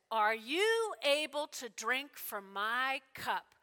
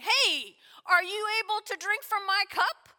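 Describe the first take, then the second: First: Slow, weighty question with drawn-out words; grave question. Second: Higher, louder, brisk question; calling out a challenge. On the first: Jesus questioning James and John, slow and grave. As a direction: ask it deliberately, letting each word land. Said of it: "And then he asks the question". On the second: Jesus challenging the two brothers, loudly calling out. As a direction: throw it out as an eager dare. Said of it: "So he's going". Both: Acted.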